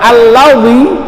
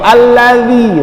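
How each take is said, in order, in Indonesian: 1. Bunyi huruf tengahnya terdengar berat, seperti dh yang tebal. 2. Bunyi huruf tengahnya terdengar tipis dan ringan. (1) "condong ke huruf dha" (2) "zi tipis"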